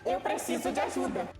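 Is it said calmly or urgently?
urgently. It is said in an urgent, emotional way.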